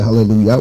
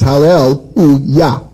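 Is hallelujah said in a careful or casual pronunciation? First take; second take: casual; careful. First: The word is said in a casual, everyday form. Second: The word is said in a careful, traditional form. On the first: "but we say hallelujah, which is okay. Everybody says that" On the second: "proper pronunciation"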